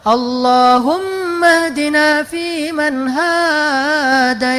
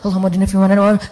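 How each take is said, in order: First: It is said slowly and relaxed. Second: It is said fast and rushed.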